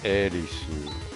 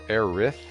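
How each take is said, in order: First: The name ends with an su syllable. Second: The name ends with a th sound. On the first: "So it would be a su, like Erisu" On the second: "it sounds like a lisp to me"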